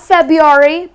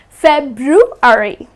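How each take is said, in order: First: The first R sound is dropped. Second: The first R sound is pronounced. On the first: The speaker calls it wrong. "It's not February" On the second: The speaker calls it right. "Please do not drop the R"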